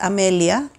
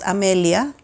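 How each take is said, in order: First: It is pronounced the Spanish way. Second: It is pronounced the Spanish way.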